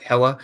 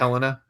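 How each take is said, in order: First: The name is said with two syllables. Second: The name is said with three syllables. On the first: The speaker calls it right. "It's Hella" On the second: The speaker calls it wrong. "You said"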